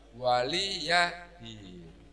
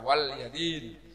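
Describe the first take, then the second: First: An i vowel is heard between wal and yadin. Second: No vowel is heard between wal and yadin. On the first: The speaker calls it right. "Padahal yang benar adalah waliyadin" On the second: The speaker calls it wrong. "karena biasanya ada yang membaca wal yadin"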